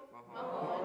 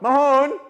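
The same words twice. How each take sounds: First: Said in the usual way. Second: "Mahone" called loud and high, "ma-HONE" with rising end; Gaelic demo. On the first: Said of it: "repeat after me". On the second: Shown as a demonstration. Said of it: "Everybody repeat after me".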